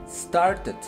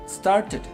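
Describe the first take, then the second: Both takes have the same delivery.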